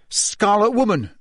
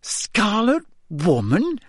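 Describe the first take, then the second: First: SCARLET WOMAN blurted high, falling at the end; scolding hiss. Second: High, slow, incredulous question; suppressed giggles. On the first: Ron finds the word for Hermione, scolding blurt. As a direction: blurt the awkward label as an accusation. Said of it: "Ron hissed at Hermione". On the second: Hermione repeats Ron's phrase, suppressing giggles. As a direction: repeat SCARLET WOMAN in amused disbelief, rising high. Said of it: "shaking with suppressed giggles". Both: A narrator's reading.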